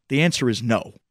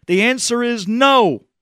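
First: Said in the usual way. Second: Angry refusal. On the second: Retold or imitated. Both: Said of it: "he gets so upset".

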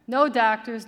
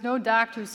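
First: A louder moan of refusal; first moan, pushed out louder. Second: Second moan, fading a little. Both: A narrator's reading. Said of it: "he moaned".

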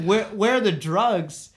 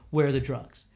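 First: Baffled echo. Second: Low, stern demand without shouting; lightly voiced mad cop; retold angry demand. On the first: Retold or imitated. Teen repeating the cop's demand, baffled. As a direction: stretch it out in total confusion. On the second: Cop demanding drugs from a teen driver, sternly. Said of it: "he gets, like, really mad".

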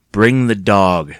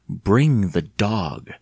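First: Slow, firm low command. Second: Very slow, measured icy order; cold. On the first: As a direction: order it slowly, voice kept down. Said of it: "she said in a low voice". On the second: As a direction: draw each word out coldly. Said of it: "Catherine repeated coldly". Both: A narrator's reading.

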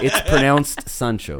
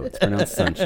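First: "Sancho" said deliberately after a slow "It's pronounced"; mock correction, "Sancho" spelled out slowly by ear; correcting pronunciation. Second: "Sancho" lifted higher with a rising end; mock correction, pitched up and rising on "Sancho"; repeated pronunciation correction. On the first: Correcting a friend's name for the dog, mock-instructive, measured. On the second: Insisting on the dog's name to a friend, higher, rising correction. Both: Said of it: "the accent is a little bit different".

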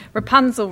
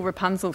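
First: Loud, high call up the tower; witch calling out. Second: Said in the usual way. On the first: Acted. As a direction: cry the name out, high and loud. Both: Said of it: "the witch cried".

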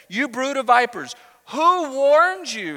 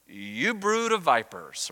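First: Raised, high-pitched declamation, slowing down; prophetic rebuke. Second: Slow, drawn-out mock-gentle address. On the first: Acted. John the Baptist challenging the crowds, raised prophetic rebuke. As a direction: hurl it out like a preaching prophet. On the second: John the Baptist addressing the arriving crowds, mock gentle. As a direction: greet them with ironic gentleness, very slowly. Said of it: "he very gently says".

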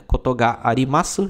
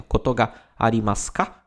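First: Said in the usual way. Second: "Koto ga arimasu ka?" ending on a rising question tune; question intonation. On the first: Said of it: "colocou o K no final pra dar a ideia de pergunta". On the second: Shown as a demonstration. Teacher shows the rising question tune of "Koto ga arimasu ka?". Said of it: "Faz a, a entonação de pergunta".

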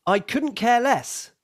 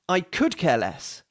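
First: Said in the usual way. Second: American idiom. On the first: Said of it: "the first version is correct". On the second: Shown as a demonstration. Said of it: "the second version is American".

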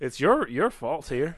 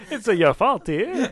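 First: Accidental hint of an Italian accent; slow, drawn-out words with a faint Italian lilt; Italian-sounding. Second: Louder, higher mock Italian; slow, hammed-up Italian sing-song; Italian accent. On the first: Real, not acted. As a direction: slip slightly into Italian cadence. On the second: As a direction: play up a comic Italian accent. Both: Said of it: "You just turned Italian for a second".

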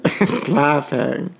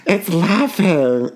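First: Slow, laughing repeat; giggling as the line comes out; laughing through it. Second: Mock spooky voice. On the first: Pretend. Host laughing while repeating the creepy line. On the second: Mocking otter laughing line.

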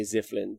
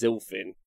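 First: Ziflin with the L after the F; L moved later. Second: Zilfin with the L ahead of the F; L before F. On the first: Streamer admitting a slip, Ziflin with misplaced L. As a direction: say Ziflin, swapping F and L, low-key. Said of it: "I do say Zilfin wrong". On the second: Streamer giving the correction, Zilfin with L before F. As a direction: say Zilfin, L closing the first syllable. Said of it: "but it's Zilfin". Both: Shown as a demonstration.

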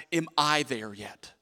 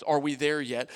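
First: Slower, with weight on "I"; stress on I. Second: Said in the usual way. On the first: Shown as a demonstration. Pastor corrects the congregation's question, stress on "I". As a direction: lean on the word "I" in the question. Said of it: "need to be people that ask". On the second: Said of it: "let's not be people that asks".

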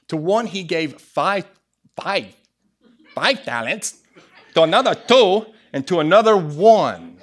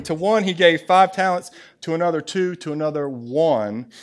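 First: Put-on accidental Asian accent, louder on the last phrases; punchy Asian-accented scripture reading. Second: Said in the usual way. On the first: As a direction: slip into a comic Asian accent. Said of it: "That was my Asian side coming out".

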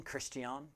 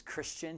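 First: "Christian" said the French way, kris-tee-AHN, softer; French pronunciation. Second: Said in the usual way. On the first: Shown as a demonstration. French form of his French name.

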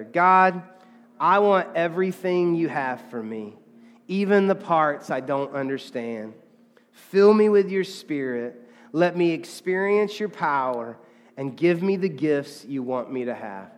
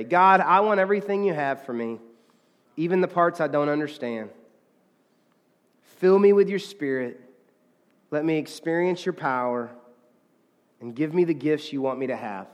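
First: Loud call on God, then measured phrases; deliberate prayer for all to join; leading group prayer. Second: Earnest read-through of a prayer; reading a prayer aloud. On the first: Real, not acted. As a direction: lead a congregation line by line, unhurried. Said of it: "Let's say that together". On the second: Shown as a demonstration. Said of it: "I'm gonna read it to us".

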